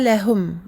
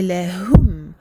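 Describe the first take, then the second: First: The last syllable has an 'o' vowel. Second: The last syllable has an 'oo' vowel. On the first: The speaker calls it wrong. "c'est pas lahum, c'est pas un O" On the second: The speaker calls it right. "bien prononcer le son ou"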